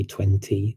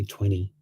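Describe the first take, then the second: First: Twenty with both t's sounded; careful pronunciation. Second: Twenty said as "twenny"; casual American "twenty", no t after the n; American dropped t. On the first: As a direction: say "twenty" fully, crisp second t. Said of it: "would not say twenty". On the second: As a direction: say "twenty" with the second t swallowed. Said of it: "they'd say twenty". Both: Shown as a demonstration.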